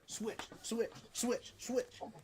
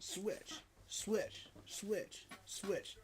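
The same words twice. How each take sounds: First: The words are said quickly, one after another. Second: The words are said slowly, with long gaps.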